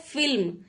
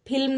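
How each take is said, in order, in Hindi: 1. यह f ध्वनि से शुरू होता है। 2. यह एस्पिरेटेड p ध्वनि से शुरू होता है। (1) "क्या होता है?" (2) "फिल्म नहीं होता"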